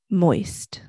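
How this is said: It is said in a low voice.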